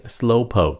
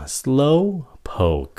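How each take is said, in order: First: "Slowpoke" shorter, breath stopped at the end; final K cut off. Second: "Slowpoke" high on "Slow", drawn out, falling on "poke"; slow, careful. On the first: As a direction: say "Slowpoke" without releasing the K. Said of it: "nói nhanh thì các bạn chỉ cần ngắt cái hơi". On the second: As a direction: stretch "Slowpoke" and release the K. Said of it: "Nói chậm nè nha". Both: Shown as a demonstration.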